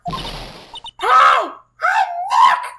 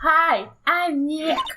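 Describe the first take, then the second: First: It is said loudly, almost shouted. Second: It is said at a normal, quieter volume.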